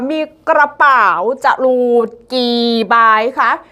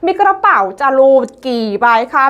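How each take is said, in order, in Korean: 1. 이 구절은 느리게 말해요. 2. 이 구절은 빠르게 말해요.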